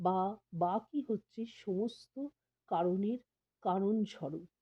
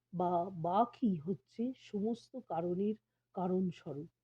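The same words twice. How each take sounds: Both takes have the same delivery.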